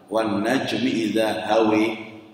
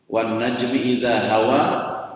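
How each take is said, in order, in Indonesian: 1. Vokal akhirnya miring ke bunyi 'e'. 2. Vokal akhirnya bunyi 'a' terbuka.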